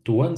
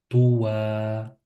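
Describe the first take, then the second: First: The word ends with an n sound. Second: The word ends in a vowel, without n. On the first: The recitation continues without stopping. "c'est juste" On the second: The recitation stops on this word. "si on s'arrête, ... Je dirais Towa"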